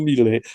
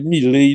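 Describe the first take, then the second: First: The name is pronounced in a non-French way. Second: The name is pronounced the French way. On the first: The speaker calls it wrong. "e não Millet" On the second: The speaker calls it right. "Eu continuo pronunciando Millet com minha formação eh, francesa, parisiense"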